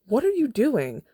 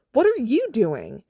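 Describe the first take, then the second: First: High, loud furious demand; angry shout. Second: Higher, louder, drawn-out repeat; slower furious shout. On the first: Katniss confronting Peeta after the interview, angry shout. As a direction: yell it in his face. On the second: Katniss pressing Peeta for an answer, slower furious shout. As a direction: hammer each word, slower. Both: Acted.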